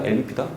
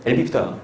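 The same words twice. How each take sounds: First: "엘비피다" softer, rising at the end; questioning tune. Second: "엘비피다" falling at the end; answering tune. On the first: Teacher offers the class the second choice, "엘비피다" as a rising question. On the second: Teacher answers own question for the class, "엘비피다" with a falling end. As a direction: settle "엘비피다" down as a firm answer. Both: Shown as a demonstration.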